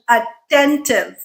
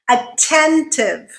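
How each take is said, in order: First: The t sound has no puff, almost like d. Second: The t sound has a strong puff of air. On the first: The speaker calls it wrong. "without the aspiration" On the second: The speaker calls it right. "so this becomes aspirated"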